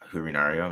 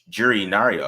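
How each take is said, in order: First: The name begins with an H sound. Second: The name begins with a J sound. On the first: The speaker calls it wrong. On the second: The speaker calls it right. "It's Jay. So I got I got it right"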